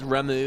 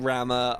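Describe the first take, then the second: First: The name ends with an 'oo' vowel. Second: The name ends with an 'ah' vowel. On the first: "I guess Ramu really is the, the right one" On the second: "I'm going to keep saying Ramma"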